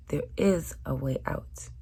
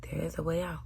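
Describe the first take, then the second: First: Said in the usual way. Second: Whispered reassurance; soft hushed whisper. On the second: Shown as a demonstration. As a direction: whisper the promise. Whispered repeat.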